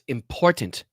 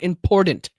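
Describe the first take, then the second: First: The middle consonant is a clear T sound. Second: The middle consonant is a soft D sound. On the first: The speaker calls it right. "It's important" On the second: The speaker calls it wrong. "There's no D in that one"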